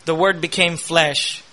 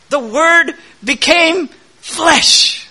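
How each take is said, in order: First: A hushed, reflective "The Word became flesh". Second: The Word became flesh proclaimed high, loud and slow; slow ringing pulpit proclamation of "The Word became flesh"; preaching climax. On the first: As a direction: drop down and say "The Word became flesh" gently and slowly. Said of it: "quiet restatement of the phrase". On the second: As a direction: proclaim "The Word became flesh" slowly, higher and louder, stretching each word. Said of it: "climax of the sermon's build". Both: Acted.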